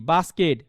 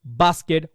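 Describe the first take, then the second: First: Said in the usual way. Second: Low-pitched English বাস্কেট, first syllable leading; foreign speakers' pronunciation. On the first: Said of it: "তারপর বলি কি". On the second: Shown as a demonstration. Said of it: "foreign speaker তাদের একটু খেয়াল". (বাস্কেট, বিদেশিদের উচ্চারণে)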